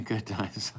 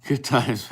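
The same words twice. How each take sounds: First: Softer, chuckling repeat of good times; soft amused echo. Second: Said in the usual way. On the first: Real, not acted. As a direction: say it again under your breath, amused. Repeats phrase after laughing.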